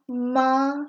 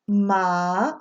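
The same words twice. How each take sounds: First: It is said with the first tone. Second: It is said with the second tone. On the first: It means mom. "when you go down the tone list" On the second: It means hemp. "when you go down the tone list"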